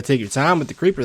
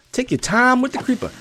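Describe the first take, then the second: First: Said in the usual way. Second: High-pitched Texas twang; thick Texas accent. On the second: Retold or imitated. Gamer catching his own slip into local speech, thick Texas accent. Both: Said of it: "I said that with an accent".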